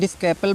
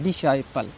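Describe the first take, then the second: First: A 'k' sound is heard after the 's'. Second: No 'k' sound is heard after the 's'. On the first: The speaker calls it wrong. "डिस्कैपल बोलते हैं कुछ बच्चे" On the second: The speaker calls it right. "इसको सी silent है ... डिसाइपल पढ़ना है"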